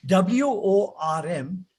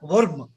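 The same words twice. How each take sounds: First: WORM as a long "wuhm", no R; English, silent R. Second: WORM short with an audible R; wrong, R sounded. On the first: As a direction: stretch the vowel of WORM, drop the R. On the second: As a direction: say WORM as "wurrm". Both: Shown as a demonstration. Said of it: "so it is not worm".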